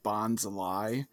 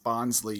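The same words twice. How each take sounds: First: The name ends with a 'lie' sound. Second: The name ends with a 'lee' sound. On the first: The name contains the word lie. "we have the lie" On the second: The pun is hidden. "you don't really get the pun"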